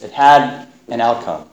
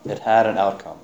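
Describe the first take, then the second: First: "had" pressed firmly, falling; stress on had. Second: Softer repeat, "had" lightly stressed; quiet echo. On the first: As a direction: lean on "had" and let it drop. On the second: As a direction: say "had" again, drawn back and softer. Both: Shown as a demonstration.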